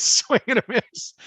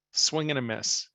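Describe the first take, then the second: First: Laughing high and loud. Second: Said in the usual way. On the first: Retold or imitated. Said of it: "trying not to laugh hysterically". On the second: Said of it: "I'm thinking".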